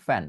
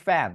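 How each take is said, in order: First: ফ্যান with both lips, aspirated p; Bengali-style ফ্যান. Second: True English f starting ফ্যান; English-style ফ্যান. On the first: Teacher showing how learners say fan, Bengali two-lip ফ্যান. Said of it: "এই যে ফ্যান উচ্চারণ করছেন সেটা কিন্তু বাংলায়". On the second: Teacher showing native speakers' fan, English lip-and-teeth f in ফ্যান. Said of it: "ফ্যান উচ্চারণটা করতে যাবে ইংরেজিতে". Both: Shown as a demonstration.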